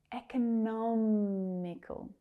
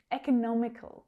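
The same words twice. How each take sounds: First: "Economical" slowly as ek-uh-NOMMM-i-kul; third syllable stressed. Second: Said in the usual way. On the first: Shown as a demonstration. Teacher revealing the stress, "Economical" drawn out on NOM. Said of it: "Where's that stress?".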